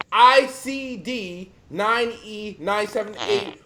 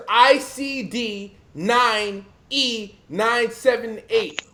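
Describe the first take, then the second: First: Slow, every letter separate; slow repeat dictation. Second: Slow, letter-by-letter spell-out; slow dictation. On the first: Repeating the code for listeners, slowly. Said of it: "Once again". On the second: Telling the audience what to Google, spelled out slowly. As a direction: spell the code out slowly for listeners. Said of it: "I want every ... to Google". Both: Shown as a demonstration.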